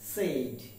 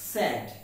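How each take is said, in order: First: The vowel sounds like the one in 'say'. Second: The vowel sounds like the one in 'sad'. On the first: The speaker calls it wrong. "আমরা মোটামুটি ভাবে পঁচানব্বই percent বাঙালি এটাকে উচ্চারণ করে থাকি সেইড" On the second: The speaker calls it right. "কিন্তু এর উচ্চারণটা হচ্ছে স্যাড"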